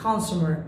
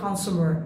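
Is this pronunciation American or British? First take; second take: American; American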